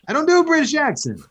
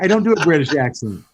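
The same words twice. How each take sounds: First: High, quick fake British accent; mock British accent. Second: Said in the usual way. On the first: Apologising to co-host for the impression, mock British accent. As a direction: put on a bad, high-pitched British voice.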